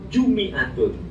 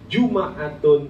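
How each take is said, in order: First: The m is followed by an i vowel. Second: The m is followed by an a vowel.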